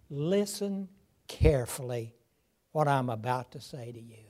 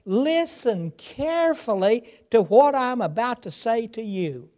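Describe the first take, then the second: First: "Listen", "carefully", "what I'm about to say to you" in separate slow pieces, dropping low and soft; measured, pausing between words; slow spaced paraphrase. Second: "Listen carefully to what I'm about to say" with stress on "what", rising; urgent call to attention, said up and strong; emphatic paraphrase. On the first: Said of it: "we might say it this way". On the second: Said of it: "Today we might say it this way". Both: Shown as a demonstration.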